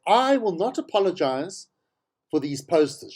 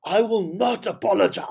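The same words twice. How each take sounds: First: Said in the usual way. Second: A lightly voiced Helen Zille, a touch higher and set apart from his own voice; mock her defiant refusal in a put-on voice; Helen Zille impression. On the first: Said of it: "I can't do her voice". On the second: Host mimicking the politician refusing to apologize, lightly voiced impression. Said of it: "I can't do her voice. It hurts my throat".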